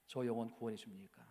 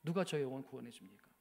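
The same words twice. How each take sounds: First: Softer, stress on 저, tune rising on 줍니까; hushed despair on 저 영혼; wife's soft tearful question; quiet tearful question. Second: Wife's insistent question, falling; emphatic tearful question. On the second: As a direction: stress on 누가, falling at the end. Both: Retold or imitated. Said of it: "막 울면서 그렇게 이야기하는데".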